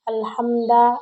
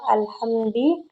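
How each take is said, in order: First: The word ends with a short a vowel. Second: The word ends with a short i vowel. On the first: The word is the object of the sentence. "dibaca dengan fathah bukan dhammah" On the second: The word follows a preposition. "Ia membaca alhamdi dengan kasroh"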